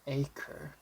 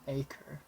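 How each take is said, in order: First: It ends with a light R sound. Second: The same.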